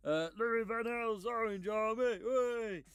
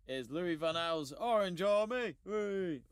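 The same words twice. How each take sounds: First: Higher, slow Dutch coach impression; Louis van Gaal voice. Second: Said in the usual way. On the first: Shown as a demonstration. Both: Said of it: "let me say that in a Louis van Gaal voice".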